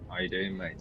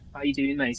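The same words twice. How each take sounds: First: It is spoken in a Manchester accent. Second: It is spoken in a Scouse accent. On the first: "proper Manchester kind of accent like that" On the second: "That's Scouse, isn't it, mate?"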